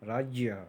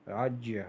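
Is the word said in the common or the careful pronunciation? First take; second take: careful; careful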